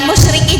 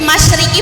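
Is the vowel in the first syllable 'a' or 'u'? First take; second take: u; a. First: The first syllable has the vowel 'u'. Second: The first syllable has the vowel 'a'. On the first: The speaker calls it wrong. "bukan musyriki" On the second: The speaker calls it right. "tetap pakai yang benar"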